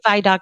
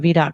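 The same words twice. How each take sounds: First: The first syllable has an 'eye' vowel. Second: The first syllable has an 'ee' vowel. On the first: "you're saying Vidoc Society" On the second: "I would think I was saying Vidoc Society"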